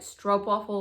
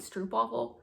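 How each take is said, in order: First: The first vowel sounds like 'o' in 'rope'. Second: The first vowel sounds like 'oo' in 'troop'. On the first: "somebody said it was like Stroopwafel, like rope" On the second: "I was calling it like Stroopwafel"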